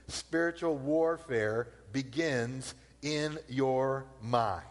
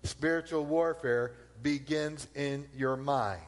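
First: Slow emphasis. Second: Slow, stress on warfare; repeated with weight. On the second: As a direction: lean on the word warfare, slowly. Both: Shown as a demonstration. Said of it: "I'll say it again".

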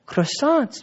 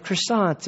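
First: High, slow put-on French accent; mock French, pitched up and stretched out; fake French accent. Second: Said in the usual way. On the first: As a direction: say "croissants" in a hammed-up French accent. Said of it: "that's my fake French, French accent". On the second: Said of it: "No, that's French, I think".

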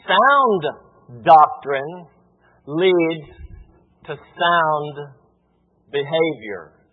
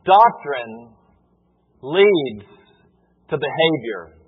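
First: "Sound" and "sound" hit, pause after each word; stress on Sound. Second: Each word set apart by long pauses; slow spaced phrase. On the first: Pastor restating to church, punching "sound". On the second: Pastor to church, spacing out the key phrase. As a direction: lay it out word by word, slowly. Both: Shown as a demonstration. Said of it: "let me say it this way".

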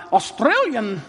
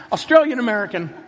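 First: Hammed-up Australian accent, word drawn out; bad Australian accent. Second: Said in the usual way. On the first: Preacher polling the congregation by nationality, bad Australian accent. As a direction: put on a badly faked Australian accent. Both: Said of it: "that's totally bad accent".

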